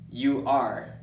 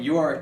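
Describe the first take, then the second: First: The two words are said separately. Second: The two words are joined into one syllable. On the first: "I don't take time to separate my words. I don't go" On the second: "I go"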